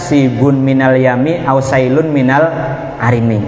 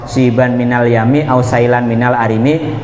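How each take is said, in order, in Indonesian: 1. Kata benda sib- dan sail- berakhiran -un. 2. Kata benda sib- dan sail- berakhiran -an. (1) "ada yang baca" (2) "Sing bener dibaca nasab"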